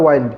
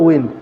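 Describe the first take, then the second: First: ওয়াইন্ড said "wained" with a long ai as in kind; ওয়াইন্ড rhymes with "find"; "ওয়াইন্ড" with a long ai, the wrapping sense; wind as coil. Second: উইন্ড said "wind" with a short i as in moving air; উইন্ড rhymes with "pinned"; "উইন্ড" with a short i, the breeze sense. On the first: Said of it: "এই বানানেরই উচ্চারণটা হয় ওয়াইন্ড". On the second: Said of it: "বানানের উচ্চারণটা যদি উইন্ড হয়". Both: Shown as a demonstration.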